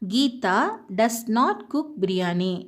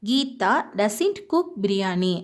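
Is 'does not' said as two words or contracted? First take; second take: two words; contracted. First: 'Does not' is said as two full words. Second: 'Does not' is shortened into one word. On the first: "இது சரியான ஒரு sentence" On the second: "இந்த டஸ் நாட் அப்படிங்கிறத நம்ம சுருக்கி"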